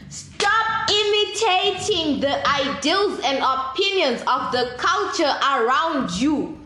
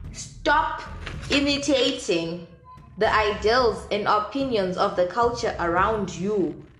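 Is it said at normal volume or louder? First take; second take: louder; normal. First: It is said noticeably louder. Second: It is said at normal volume.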